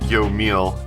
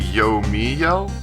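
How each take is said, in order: First: The name is said as two syllables. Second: The name is said as three syllables. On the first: The speaker calls it wrong. "I've been pronouncing it yo meal" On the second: The speaker calls it right. "I've been told that it's apparently yo me yell"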